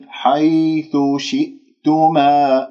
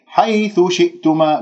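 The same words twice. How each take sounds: First: حيث شئتما slowly, with an even gliding y in حيث; soft smooth ya. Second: حيث شئتما with the y of حيث pushed high, almost doubled; wrongly stressed ya. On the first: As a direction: ease smoothly through the ya of حيث. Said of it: "ياء لين بليونة وسلاسة". (ياء لينة بسلاسة في حيث) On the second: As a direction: press hard on the ya in حيث. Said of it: "ليش أنت تنبرها؟". (نبر الياء خطأً في حيث) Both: Shown as a demonstration.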